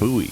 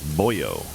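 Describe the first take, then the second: First: The word has no added final 'oh' sound. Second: The word ends with an added 'oh' sound. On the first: "And it was buoy" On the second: "that's how Finnish people pronounce it. It's boyo"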